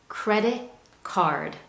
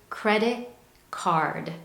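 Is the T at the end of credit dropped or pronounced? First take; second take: dropped; dropped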